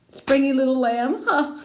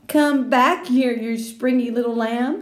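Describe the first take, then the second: First: High, rising echo; girl laughing at a silly phrase; amused disbelief. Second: Slow, loud, higher calling out; boy calling to girl while chasing; playful call. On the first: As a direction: repeat it in mocking wonder. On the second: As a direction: chase her teasingly. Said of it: "he called". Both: Acted.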